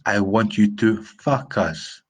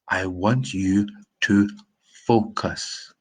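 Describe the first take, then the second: First: The first syllable sounds like 'fuck'. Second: The first syllable sounds like 'foe'. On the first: It means something vulgar. The speaker calls it wrong. "Not I want you to fuck us" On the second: It means to pay attention. The speaker calls it right. "focus, to pay attention"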